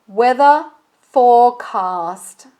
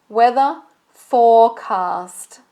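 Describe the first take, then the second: The two takes are said the same way.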